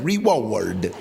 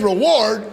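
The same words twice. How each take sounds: First: It is said in Sam's odd, exaggerated way. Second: It is said in an ordinary, plain way.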